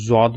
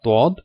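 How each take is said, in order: First: The name begins with a z sound. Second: The name begins with a d sound. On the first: The speaker calls it wrong. "Urdu में इसको ज़ौद भी कहते हैं" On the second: The speaker calls it right. "सही इसका साउंड होता है ... दौद"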